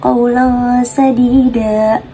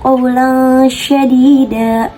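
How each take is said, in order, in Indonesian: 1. Kata terakhir diawali dengan bunyi s biasa. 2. Kata terakhir diawali dengan bunyi sh.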